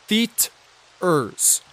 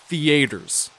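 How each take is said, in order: First: The word is said with a standard pronunciation. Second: The word is said with a Southern pronunciation. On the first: The speaker calls it right. "I'm pretty sure it's spelt theaters" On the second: The speaker calls it wrong. "90% of the people down there called it theaters"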